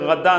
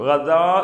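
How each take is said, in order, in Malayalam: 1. ഈ വാക്ക് സംസാര രൂപത്തിലാണ് പറയുന്നത്. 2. ഈ വാക്ക് പൂർണ്ണ ഔപചാരിക രൂപത്തിലാണ് പറയുന്നത്. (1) "സംസാര ഭാഷയിൽ ഗദ എന്നേ പറയുള്ളൂ" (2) "ഗദാ എന്നാണ് സംഗതി ഉള്ളത്"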